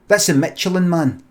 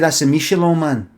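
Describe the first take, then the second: First: Michelin is pronounced the plain English way. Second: Michelin is pronounced the French-style way. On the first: This is how people name the tire mascot. The speaker calls it right. "They would say, oh, that's a Michelin man" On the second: This is how people say it for restaurant stars. The speaker calls it wrong. "They wouldn't say"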